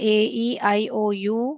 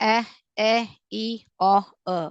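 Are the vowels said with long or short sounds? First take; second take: long; short. First: Each vowel is said with its long sound. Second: Each vowel is said with its short sound. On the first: "இதுக்கு பெயர் long vowel sound" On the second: "அது வந்து short vowel sound"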